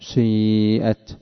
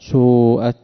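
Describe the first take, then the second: First: The vowel starts with slight u, then mostly i. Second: The first vowel is a pure u sound. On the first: "تأتي بجزء ضم قليل سابق، ثم تكمل بجزء كسر كثير لاحق" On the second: "ولا ضما"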